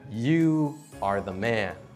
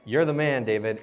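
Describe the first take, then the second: First: It sounds like a grave, solemn accusation. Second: It sounds like admiring, casual praise.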